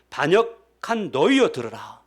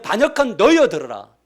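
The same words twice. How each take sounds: First: Slow stern rebuke. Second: Shouted high and much louder, 너희여 falling hard; furious shout. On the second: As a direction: bellow the rebuke at the people. (화가 나서 크게 외치는 모세) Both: Retold or imitated. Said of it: "성도들에게 뭐라고 하냐면".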